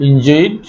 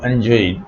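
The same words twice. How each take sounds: First: "এনজয়েড" opening on "in"; first-vowel variant. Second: "এনজয়েড" opening on "an"; alternative first vowel. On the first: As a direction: begin "এনজয়েড" with a short i. ("এনজয়েড"-এর শুরুতে ই ধ্বনি) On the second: ("এনজয়েড"-এর শুরুতে অ্যা ধ্বনি) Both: Shown as a demonstration. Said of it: "এনজয়েড বা এনজয়েড".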